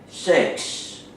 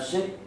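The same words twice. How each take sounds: First: The final s sound is clearly pronounced. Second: The final s sound is weak or dropped. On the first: The speaker calls it right. "You have to pay attention to that S at the end of word" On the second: The speaker calls it wrong. "Not uh"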